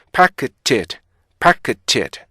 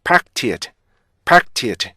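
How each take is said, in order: First: "packed" as pa-ke-tet, the k given its own beat; careful slower version. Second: "packed" squeezed to PAK-tit; sped-up version. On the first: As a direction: sound out the middle k of "packed". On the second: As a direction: close the k of "packed" straight into t. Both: Shown as a demonstration. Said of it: "이게 속도가 빨라지면요".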